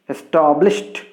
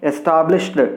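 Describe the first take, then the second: First: The ending is a plain t sound. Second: The ending is an extra syllable. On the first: The speaker calls it right. "You can pronounce it as" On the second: The speaker calls it wrong. "We should not say"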